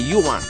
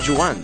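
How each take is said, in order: First: The name begins with a y sound. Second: The name begins with a soft zh sound. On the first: The speaker calls it right. "c'est Yuan" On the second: The speaker calls it wrong. "Pas Joanne"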